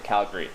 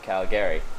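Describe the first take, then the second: First: The ending is shortened and reduced. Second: The ending is said fully as gary. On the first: The speaker calls it right. "you don't say the Gary at the end. You say Calgary. You know, you shorten" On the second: The speaker calls it wrong. "It's spelled Calgary"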